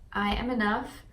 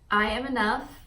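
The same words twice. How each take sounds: First: It is said earnestly, with real conviction. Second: The same.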